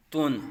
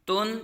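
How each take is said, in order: First: تن said as "tun" with a thick, rounded t; full, heavy Tun. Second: تن said as "tun" with a light front t; thin, light Tun. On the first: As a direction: thicken the t of تن before the u. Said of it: "پر پڑھا جائے گا". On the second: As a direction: keep the t of تن thin before the u. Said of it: "یہ باریک اور یہ". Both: Shown as a demonstration.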